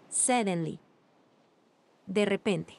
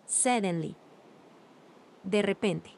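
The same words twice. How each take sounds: The two takes are said the same way.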